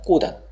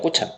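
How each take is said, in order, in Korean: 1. 두 번째 음절은 d 소리로 시작합니다. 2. 두 번째 음절은 ch 소리로 시작합니다. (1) "발음이 꼬단이라고 발음 납니다" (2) "당연히 틀리죠"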